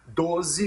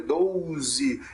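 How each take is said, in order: First: The first vowel is a single plain 'o'. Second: The first vowel glides, like 'ou'. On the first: The speaker calls it right. "É doze mesmo sem essa semivogal U" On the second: The speaker calls it wrong. "fazem essa pronúncia doze, para pronunciar mais cheio"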